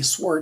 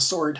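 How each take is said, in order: First: The W in sword is pronounced. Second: The W in sword is silent. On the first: "lately I'm starting to say sword" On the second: "I never used to pronounce the W"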